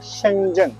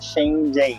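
First: It is said with a Mandarin Chinese pronunciation. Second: It is said with a Brazilian Portuguese accent. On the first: The speaker calls it right. "é Shenzhen que fala" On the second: The speaker calls it wrong. "não é Shenzhen"

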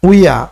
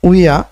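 First: The two words are blended into one syllable. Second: The two words are blended into one syllable.

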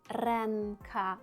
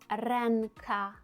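Both takes have the same delivery.

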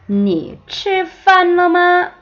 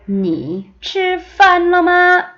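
No difference in how they are said.

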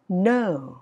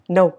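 First: The pitch rises and then falls. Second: The pitch stays flat and clipped. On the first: The speaker calls it right. "Nó sẽ là lên và xuống ha" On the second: The speaker calls it wrong. "Nó gọi là chặt từng khúc"

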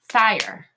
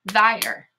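First: The opening th sound is voiceless. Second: The opening th sound is voiced.

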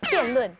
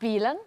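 First: The word is said in Mandarin. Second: The word is said in Shanghainese. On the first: "國語點講辯論？" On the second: "即系上海话就系咁讲"

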